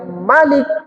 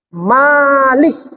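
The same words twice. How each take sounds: First: The first vowel is held short. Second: The first vowel is held long. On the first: It means king or ruler. "Kalau dibaca dia Malik pendek" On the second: It means owner. "Kalau dibaca panjang"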